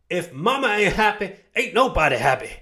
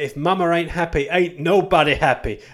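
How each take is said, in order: First: It is said in a put-on, different accent. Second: It is said in the speaker's normal accent. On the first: The speaker calls it right. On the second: The speaker calls it wrong.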